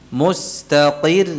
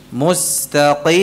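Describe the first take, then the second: Both takes have the same delivery.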